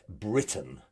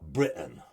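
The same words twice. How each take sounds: First: The middle T is clearly pronounced. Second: The middle T is dropped. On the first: The speaker calls it right. "or Great Britain" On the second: The speaker calls it wrong. "not Britain"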